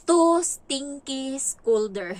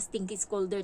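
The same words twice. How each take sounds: First: Slow, loud, drawn-out reading of the note. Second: Said in the usual way. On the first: Retold or imitated. Nanny reads the child's note aloud, slow and loud. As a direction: spell out each word slowly and loudly. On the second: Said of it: "ang tawag niya sa".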